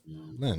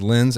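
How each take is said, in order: First: The name is said with a French nasal vowel. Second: The name is said with an English-style vowel. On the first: The speaker calls it right. "it's Lon Lin" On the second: The speaker calls it wrong. "I said Lens"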